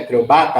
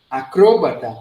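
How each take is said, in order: First: It is stressed the Portuguese way. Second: It is stressed the Spanish way. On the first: "Em português" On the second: "Mudou o idioma, mudou a tonicidade"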